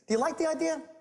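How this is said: It sounds calm and disarming.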